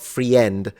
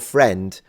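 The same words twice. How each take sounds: First: The i in the word is pronounced. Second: The i in the word is silent. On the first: The speaker calls it wrong. "not friend" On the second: The speaker calls it right. "or friend"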